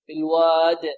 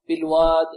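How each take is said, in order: First: The final d has a strong, clear bounce. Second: The final d has a weak, faint bounce. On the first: The speaker calls it right. "وهي هنا أقوى" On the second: The speaker calls it wrong. "يحذر الطالب النتيان بها ضعيفة"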